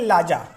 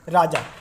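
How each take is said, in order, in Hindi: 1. शब्द की शुरुआत L ध्वनि से होती है। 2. शब्द की शुरुआत R ध्वनि से होती है। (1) "रे की आवाज़ किस में बदल जाएगी? लाम में, तो क्या पढ़ेंगे?" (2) "जैसे हम हमने कह दिया कि राजा"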